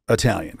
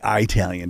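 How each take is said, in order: First: Said in the usual way. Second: Italian with a long "EYE" at the start; regional pronunciation. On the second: Shown as a demonstration. Explaining how they say it down there, Italian as "EYE-talian". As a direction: say Italian as "EYE-TAL-yun". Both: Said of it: "they say Italian down there".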